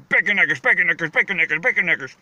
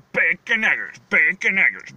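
First: "bacon eggers" rattled off faster and faster, slurring together; fast repetition. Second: Said in the usual way. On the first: Shown as a demonstration. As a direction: say "bacon eggers" quickly over and over until the words blur. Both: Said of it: "you say it fast enough".

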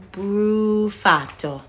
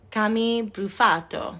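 First: Drawn-out Italian pronunciation of Brufato; Italian accent. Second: Said in the usual way. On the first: Real, not acted. Reading out a fan's surname from a card, accidentally Italian. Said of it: "why I just made you Italian". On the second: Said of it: "Am I saying that right?".

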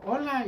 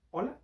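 First: Higher-pitched falling hello; imitated woman's greeting. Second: "Hola" higher, rising into a question; questioning hello. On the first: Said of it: "me saludó, me dijo". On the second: Retold or imitated. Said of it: "y yo".

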